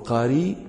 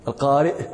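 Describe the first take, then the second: First: The word ends in a single y with no glottal stop. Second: The word ends with a glottal stop after the vowel. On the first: "تحذفون الهمزة وتقولون القاري" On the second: "ويمكنكم أن تقولوا القارئ"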